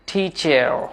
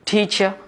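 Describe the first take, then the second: First: The final r sound is clearly pronounced. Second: The final r sound is dropped. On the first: "American টিচার" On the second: "British টিচার"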